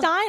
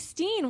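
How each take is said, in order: First: The vowel sounds like 'eye'. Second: The vowel sounds like 'ee'. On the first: The speaker calls it right. "You say Stein" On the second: The speaker calls it wrong. "I say Steen"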